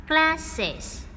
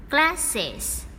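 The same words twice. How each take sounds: The two takes are said the same way.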